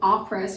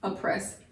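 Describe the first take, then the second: First: The first vowel is a full long O. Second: The first vowel is a weak schwa sound. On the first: The speaker calls it wrong. "it's not really oppress" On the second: The speaker calls it right. "it's just a oppress"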